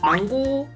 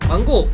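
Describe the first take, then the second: First: The name is called in a calm, even pitch. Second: The name is called sharply and abruptly. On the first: The speaker calls it right. "일정한 높낮이로 부르시는 게 가장 좋아요" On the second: The speaker calls it wrong. "갑자기 망고! 망고! 이렇게 부르면 당연히 느낌도 다르겠죠"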